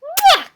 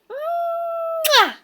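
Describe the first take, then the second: First: High, short loud kiss sound. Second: High, long drawn-out kiss sound; demonstrated kiss sound. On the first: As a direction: pop a quick loud kiss. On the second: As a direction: model a big smacking kiss for the bird. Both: Shown as a demonstration.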